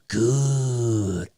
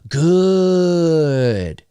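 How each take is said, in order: First: It is said in a put-on character voice. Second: It is said in a plain, natural voice. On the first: A fan recognizes the film reference. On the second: It means nothing to a listener.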